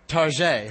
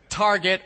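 First: Target is said in a mock French way. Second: Target is said in a plain English way.

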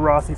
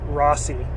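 First: The middle consonant is a th sound. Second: The middle consonant is an s sound. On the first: The speaker calls it right. "it's TH" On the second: The speaker calls it wrong. "anybody from South America pronouncing his name Rossi"

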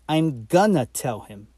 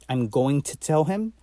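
First: 'Going to' is reduced to 'gonna'. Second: 'Going to' is said in full.

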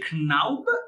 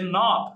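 First: The name is said with a German pronunciation. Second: The name is said with an American pronunciation. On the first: "The Germans would say Knaub" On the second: "the Americans would say Knob"

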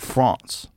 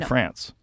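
First: France is pronounced with a French accent. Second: France is pronounced with an American accent. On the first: This is how the French say it. "you guys say France" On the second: This is how Americans say it. "We say France"

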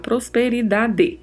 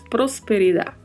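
First: The word ends with a final vowel sound. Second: The word ends without a final vowel sound. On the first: "em português, né, é bem claro, prosperidade" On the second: "em espanhol não tem a letra E do final, e pronunciamos prosperidade"

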